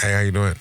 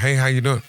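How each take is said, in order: First: It sounds grumpy and sullen. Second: It sounds happy and friendly.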